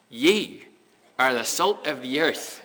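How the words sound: It is said in a Northern Irish accent.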